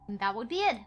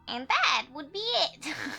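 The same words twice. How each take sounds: First: It is said in her normal voice. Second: It is said in a put-on grandma voice.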